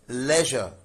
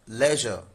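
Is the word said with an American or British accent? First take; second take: British; British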